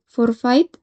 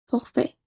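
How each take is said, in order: First: "forfait" read letter by letter, "for-fa-eet", slow; Spanish reading. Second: "forfait" said the French way, like "forfé", much softer; French pronunciation. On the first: Teacher models the adapted loanword, slow Spanish spelling pronunciation. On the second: Teacher gives the form to avoid, soft French pronunciation. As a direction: drop the final t and say "forfait" as "forfé". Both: Shown as a demonstration. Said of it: "y no".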